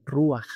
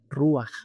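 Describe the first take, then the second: First: The 'a' vowel comes before the 'ch' sound. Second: The same.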